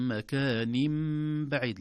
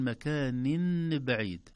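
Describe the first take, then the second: First: مكان بعيد very slow, tanween turned to meem, makanim baʕid; slow model recitation; correct recitation. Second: مكان بعيد with a clear nun, makanin baʕid; demonstrating the error; wrong reading. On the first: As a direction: draw out مكان بعيد with iqlab. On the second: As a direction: show مكان بعيد without iqlab. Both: Shown as a demonstration. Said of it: "لا نقول".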